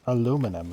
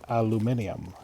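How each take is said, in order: First: It is said the American way. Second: It is said a non-American way. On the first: "us Americans say" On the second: "instead of"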